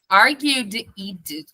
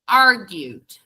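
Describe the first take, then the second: First: The ending is said as an extra syllable. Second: The ending adds no extra syllable.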